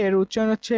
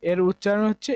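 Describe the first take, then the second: No difference in how they are said.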